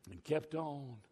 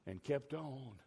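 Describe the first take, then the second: No difference in how they are said.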